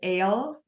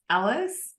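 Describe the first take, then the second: First: The name is said to rhyme with 'ails'. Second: The name is said to sound like 'Alice'. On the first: The speaker calls it wrong. "it looks more like Ailes" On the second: The speaker calls it right. "pronounced like Alice in Wonderland"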